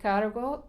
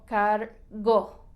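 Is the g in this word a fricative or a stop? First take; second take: fricative; stop. First: The g is a soft fricative sound. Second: The g is a hard stop sound. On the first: The speaker calls it right. "se dice cargo" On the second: The speaker calls it wrong. "y no cargo"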